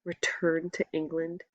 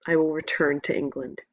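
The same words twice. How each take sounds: First: Quiet, stunned disbelief; soft shocked echo; stunned question. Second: Said in the usual way. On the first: A narrator's reading. Boy stunned by the news.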